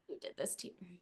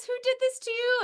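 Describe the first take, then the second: First: Much softer, hushed take on the quote; soft quoted line. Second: High, pleading quote of a worried heroine; high quoted line. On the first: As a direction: drop it down to a near hush. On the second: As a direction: lift it up high and anxious. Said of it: "when she says". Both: Retold or imitated.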